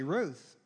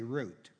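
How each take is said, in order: First: The name ends with a th sound. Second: The name ends with a t sound. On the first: The speaker calls it wrong. "you don't say Ruth" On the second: The speaker calls it right. "You say Root"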